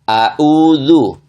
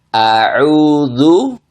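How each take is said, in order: First: Both consonants are plain glottal stops. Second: A glottal stop, then a throaty ain sound. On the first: The speaker calls it wrong. "Salahnya dua-duanya dibaca dengan hamzah" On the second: The speaker calls it right. "yang benar seperti contohnya, saya contohkan"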